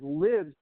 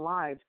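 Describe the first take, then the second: First: The vowel rhymes with the vowel in 'give'. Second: The vowel rhymes with the vowel in 'five'. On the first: It means that God is alive. "I like reading it as lives" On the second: It refers to the existences of people. "Instead of entered into our hearts and lives"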